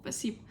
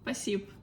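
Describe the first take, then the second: First: The word is said quickly with sounds dropped. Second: The word is said quickly with sounds dropped.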